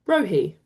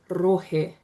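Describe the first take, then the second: First: The R is said without a roll, English style. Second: The R is lightly rolled, Māori style. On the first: "in English or Kiwi English, you might say" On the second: "In Māori, we want to roll the R ever so slightly"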